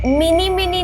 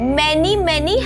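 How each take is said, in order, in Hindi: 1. पहला स्वर 'ee' जैसा लगता है, जैसे mini में। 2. पहला स्वर 'e' जैसा लगता है, जैसे men में। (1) "अरे मिनी मिनी नहीं" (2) "मैनी मैनी happy returns of the day होता है"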